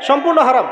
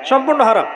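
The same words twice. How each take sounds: The two takes are said the same way.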